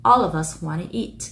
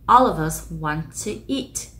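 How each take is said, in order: First: "wanna" reduced from want to, "All of us" linked. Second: "all of us want to eat" slow, with "all of us" linked; slow linked example. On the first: Teacher showing the reduced wanna to students. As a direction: say "All of us wanna eat" relaxed. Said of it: "want to có thể đọc là wanna". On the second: Teacher modelling a linked sentence for students. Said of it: "Ví dụ". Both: Shown as a demonstration.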